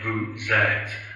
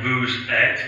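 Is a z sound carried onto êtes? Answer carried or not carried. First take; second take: carried; not carried. First: A z sound is carried onto the second word. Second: No z sound is carried onto the second word. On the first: The speaker calls it right. "it's more like vous êtes" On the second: The speaker calls it wrong. "it's not like vous êtes"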